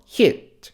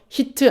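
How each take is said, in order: First: The final T is stopped and barely released. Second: The final T is fully released with a vowel. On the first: The speaker calls it right. "멈췄다가 살짝만 해줘요" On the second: The speaker calls it wrong. "히트 아니고요"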